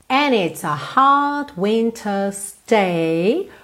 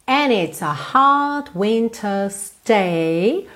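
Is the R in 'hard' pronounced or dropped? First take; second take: dropped; dropped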